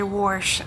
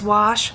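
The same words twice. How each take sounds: First: The word has an R sound before the sh. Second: The word has no R sound before the sh. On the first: The speaker calls it wrong. "I don't say wash. I don't get that R in there" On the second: The speaker calls it right. "It's wash"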